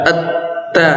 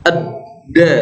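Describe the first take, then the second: First: At-ta with a voiceless, breath-released T. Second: Ad-da with a voiced, unbreathed D. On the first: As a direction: let breath out on the T of At-ta. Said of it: "kalau ta". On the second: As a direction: model the D clearly in Ad-da. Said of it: "Jadi sifatnya beda". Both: Shown as a demonstration.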